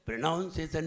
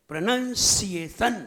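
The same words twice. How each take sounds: First: प्रोनाउंसिएशन with "naun" and a squashed "sesan"; mispronounced. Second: प्रोनंसिएशन slowly in separate syllables, "pra-nan-si-ay-san"; correct pronunciation. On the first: Preacher shows the mistake, wrong pronunciation of प्रोनाउंसिएशन. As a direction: run प्रोनाउंसिएशन together as "pra-naun-sesan". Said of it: "नहीं". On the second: Preacher corrects the listeners, slow syllable-by-syllable प्रोनंसिएशन. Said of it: "इसको भी सही बोलना सीखिए". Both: Shown as a demonstration.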